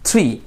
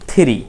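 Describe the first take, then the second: First: The first two sounds blend together. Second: The first two sounds are kept apart. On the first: The speaker calls it right. "এটা দুটো একসাথে মিশে যাবে" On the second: The speaker calls it wrong. "আমরা অনেকে হয়তো বলি থ্রি"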